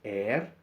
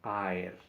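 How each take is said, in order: First: The opening vowels merge into a single e sound. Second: The opening a and e are said separately. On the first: The speaker calls it wrong. "No se dice er" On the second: The speaker calls it right. "sino aer"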